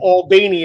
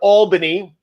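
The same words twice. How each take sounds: First: Albany is said with the local Georgia pronunciation. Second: Albany is said with a non-local pronunciation.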